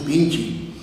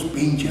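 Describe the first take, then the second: First: "pinche" ending in an EE sound; slower "pinche" with final E turned to I; pinche said as pinchi. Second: "pinche" with an open final vowel; careful "pinche", final E sounded. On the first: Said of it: "decimos pinche". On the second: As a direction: say "pinche" as written, not ending in I. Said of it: "pero nunca decimos pinche". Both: Shown as a demonstration.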